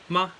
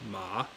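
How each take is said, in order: First: The pitch is short and unmarked. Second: The pitch dips low before rising. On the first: "ma means neutral tone" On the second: "and then third tone, ma"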